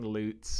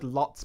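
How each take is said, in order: First: The vowel is long, as in 'loots'. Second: The vowel is short, as in 'lots'. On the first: This is the official way of saying the name. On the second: This is the usual everyday way of saying the name.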